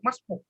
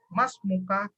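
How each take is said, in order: First: The word stops short without its final vowel ending. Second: The word is said with its full final vowel ending. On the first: This is how it is said in conversation. "Kalau percakapan kita tidak perlu membaca harokatnya lengkap ... masbuk langsung di waqafkan" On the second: This is how it is read from a book. "Kalau kita baca kitab, bacanya lengkap"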